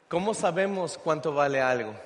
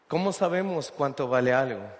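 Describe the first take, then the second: The two takes are said the same way.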